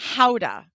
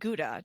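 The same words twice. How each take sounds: First: It is said with the local Dutch pronunciation. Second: It is said with the familiar English pronunciation. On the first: The speaker calls it right. "how they pronounce it" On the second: The speaker calls it wrong. "it's not called Gouda"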